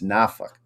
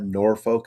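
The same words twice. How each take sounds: First: Norfolk said the local way, "NAH-fuk"; no R, short swallowed ending in Norfolk: "NAH-fuk"; local pronunciation. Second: Norfolk said as spelled, "NOR-foke"; non-local pronunciation. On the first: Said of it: "It's not Norfolk". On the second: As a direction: sound the R and a full "folk" in Norfolk: "NOR-foke". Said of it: "I kept saying it wrong". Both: Shown as a demonstration.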